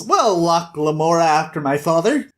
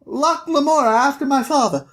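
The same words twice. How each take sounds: First: Put-on adult repeating a boy's name back; measured grown-up voice, near the speaker's own; Thiefmaker. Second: Put-on high little-boy voice; small boy piping out his full name; Locke. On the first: Thiefmaker repeats Locke's name back, measured adult voice. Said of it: "And the Thiefmaker says". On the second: Locke tells the Thiefmaker his name, piping boy voice. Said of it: "And he's like".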